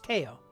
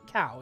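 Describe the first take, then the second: First: The vowel sounds like the one in 'go'. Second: The vowel sounds like the one in 'cow'. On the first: The speaker calls it right. "it's Ko" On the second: The speaker calls it wrong. "Or not cow"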